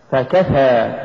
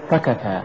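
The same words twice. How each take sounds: First: فكفى with ف set apart and كفى pushed; push after fa. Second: فكفى short, run into one word; wrong stress. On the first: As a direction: lean on the ك and draw out فكفى. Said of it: "قل". (نطق فكفى بدفع الكاف بعد الفاء) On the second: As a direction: say فكفى quickly, weight on the ف. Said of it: "ولا تقل". (نطق فكفى دون دفع الكاف) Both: Shown as a demonstration.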